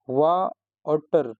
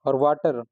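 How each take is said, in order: First: Slow, split into वा and टर with a pause; syllable by syllable. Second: Said in the usual way. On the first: Shown as a demonstration. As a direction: say वा, stop, then टर, slowly. (वा और टर धीरे-धीरे, अलग-अलग) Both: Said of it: "जहाँ पे हमें वा और टर पे रुक करके पढ़ना पड़ता है".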